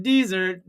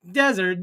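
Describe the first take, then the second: First: "dessert" with stress on the second syllable, di-ZERT; "dessert" said di-ZERT, the sweet course, for the viewers; dessert as in cake. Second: "Desert" with stress on the first syllable, DEZ-ert; "Desert" said DEZ-ert, the sandy place, to a chat audience; desert as in sand. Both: Shown as a demonstration. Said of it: "You say a desert and I say a dessert".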